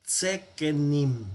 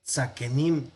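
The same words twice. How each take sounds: First: Tzekenim with "tze" replacing "tza", said slowly; "tzekenim" slowly, first vowel reduced to a short E; corrected reduced form. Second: Tzakenim with a full A in the first syllable; "tzakenim" starting on an open "tza"; unreduced wrong form. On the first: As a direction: say "tzekenim" syllable by syllable, starting on tze. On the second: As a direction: say "tzakenim" keeping the A after tz. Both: Shown as a demonstration. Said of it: "no, sino tzekenim".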